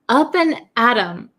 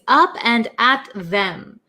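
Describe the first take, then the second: First: The th is dropped, leaving 'em. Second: The word them is said in full. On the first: "when we say it in America" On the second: "the actual word is up and at them"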